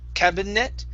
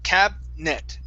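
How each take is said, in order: First: The middle i sound is pronounced. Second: The middle i sound is silent. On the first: The speaker calls it wrong. "So you're adding that I right in between" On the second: The speaker calls it right. "the I is silent"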